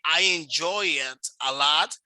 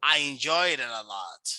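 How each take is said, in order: First: The words are said separately without linking. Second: The final consonants link into the following vowels. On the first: "you can say" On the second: "it's gonna sound like this. Okay, and this is what we call linking"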